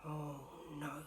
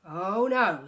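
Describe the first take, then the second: First: Said in the usual way. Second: Much louder oh no; loud exasperated groan. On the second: Acted. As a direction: cry it out, fed up. Mister Bear loud complaint.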